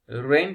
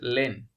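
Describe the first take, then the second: First: The word begins with an r sound. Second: The word begins with an l sound. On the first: "Rain becomes Len" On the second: "Rain becomes Len"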